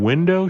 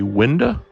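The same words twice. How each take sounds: First: The word ends with a full, clear vowel. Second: The word's ending is clipped with a changed vowel. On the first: The speaker calls it right. "Instead of saying window" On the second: The speaker calls it wrong. "she would say window"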